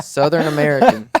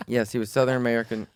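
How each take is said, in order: First: Higher, louder, laughing as you say Southern American; laughing repeat. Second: Said in the usual way. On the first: Real, not acted. Answering a friend's guess about the driver, laughing repeat.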